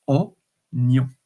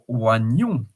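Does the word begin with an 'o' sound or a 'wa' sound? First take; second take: o sound; wa sound. First: The word begins with an 'o' sound. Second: The word begins with a 'wa' sound. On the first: The speaker calls it right. "It's onion, like as if the I is not pronounced" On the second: The speaker calls it wrong. "it's not one wagnon or wagnon"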